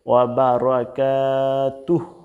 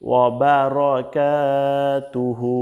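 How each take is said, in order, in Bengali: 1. শব্দটি শেষ হয় একটি খালি ব্যঞ্জনে। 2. শব্দটি শেষ হয় একটি স্বরে। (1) "যদি থামেন" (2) "যদি আপনি না থামেন"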